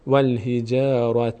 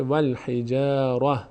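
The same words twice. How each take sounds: First: والحجارة with full ending ة as in joining; slow والحجارة keeping the final vowel; joined reading. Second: والحجارة ending in silent ه when stopping; pausal reading. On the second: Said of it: "در هنگام وقف". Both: Shown as a demonstration.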